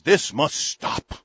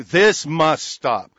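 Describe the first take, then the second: First: Every word slow and weighted; slow stressed read. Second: Very slow and louder, each word hammered; mock emphatic read. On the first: Real, not acted. Reading the president's statement, slow heavy stress. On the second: Shown as a demonstration. Mocking the president's tweet, hammered slow capitals. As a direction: say it like capital letters with an exclamation point. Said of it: "written in big capital letters with an exclamation point".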